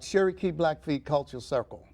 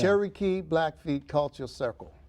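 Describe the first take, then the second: First: It is said at normal conversational speed. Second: It is said slowly and deliberately.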